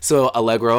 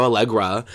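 First: "Allegro" said with a clear final o; "Allegro" ending on a rounded oh vowel; Allegro, masculine form. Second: "Allegra" with the last vowel relaxed to uh; Allegra, feminine form. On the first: Naming her first dog Allegro, ending on oh. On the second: Turning the dog's name feminine, ending on uh. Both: Shown as a demonstration. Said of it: "you gotta conjugate it for a female".

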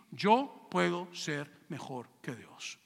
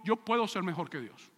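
First: Slow drawn-out boast. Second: Said in the usual way. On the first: Acted. Preacher slowly savoring Satan's boast against God, drawn out. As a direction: let every word of "Yo puedo ser mejor que Dios" linger as a slow, proud boast.

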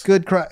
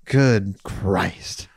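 First: Quick, higher exclamation; exasperated exclamation. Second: Low, slow mock-solemn exclamation; drawn-out exclamation. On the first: Real, not acted. Podcaster reacting to dating apps, quick high exclamation. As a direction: toss it out quickly, pitched up. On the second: Podcaster repeating himself to co-host, low drawn-out exclamation. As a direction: stretch both words out, pitched down.

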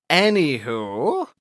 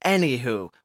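First: ANYWHO stretched slowly, rising at the end; drawn-out segue. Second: Said in the usual way. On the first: Pretend. Host moving on after an accent tangent, "Anywho" drawn out and rising. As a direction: draw out "Anywho" with a playful upward swoop.

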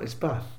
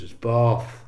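First: "Bath" with a short flat "a", like "cat"; northern Bath. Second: "Bath" with a long "ah" vowel, said "Barth"; posh Bath. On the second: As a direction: insist on a long posh "Baath". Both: Retold or imitated. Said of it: "Really posh".

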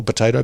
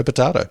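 First: "potato" with an "ay" in the middle; potayto version. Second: "potato" with an "ah" in the middle; broad long A in "potato"; potahto version. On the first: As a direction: say "potato" as po-TAY-to. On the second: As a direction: say "potato" as po-TAH-to. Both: Shown as a demonstration. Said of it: "as we said before".

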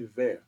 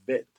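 First: "vert" said vair, ending in r; variant pronunciation. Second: "vert" said vet, with a final t; Creole pronunciation. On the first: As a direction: finish "vert" on an r, no t. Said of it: "some people say vert". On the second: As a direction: close "vert" on a crisp t. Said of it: "but it's vert". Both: Shown as a demonstration.

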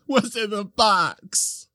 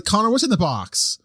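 First: Much higher and very slow, drawn-out anguish; hammed-up anguished "What's in the box?"; desperate movie quote. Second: Movie-line outburst. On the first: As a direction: plead it like the famous film scene. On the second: Acted. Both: Quoting the famous movie line.

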